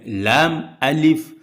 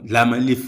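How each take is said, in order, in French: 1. Les deux parties sont gardées clairement séparées. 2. Les deux parties sont enchaînées en une seule. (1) "c'est effectivement les lettres lam et alif" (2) "Et non"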